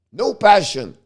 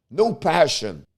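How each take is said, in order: First: Exasperated emphatic repeat of "no passion"; stress on no passion. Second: Said in the usual way. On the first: Real, not acted. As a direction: hit "no passion" harder the second time. Ranting about the team.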